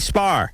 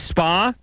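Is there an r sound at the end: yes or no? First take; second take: yes; no. First: It ends with an added r sound. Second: It ends in a plain vowel, no r.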